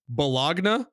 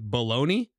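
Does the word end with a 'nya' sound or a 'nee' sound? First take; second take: nya; nee. First: The word is said as spelled, ending in 'nya'. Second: The word is said as 'baloney', ending in 'nee'. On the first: "A word that is pronounced Bologna?" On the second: "I have to pronounce it baloney?"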